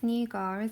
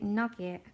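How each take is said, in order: First: It is said like 'noo-gah', with a long 'oo'. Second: It is said like 'nugget', with a short 'u'. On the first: The speaker calls it right. "And I know it's nougat" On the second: The speaker calls it wrong. "I used to call it nugget, and my mum used to correct me"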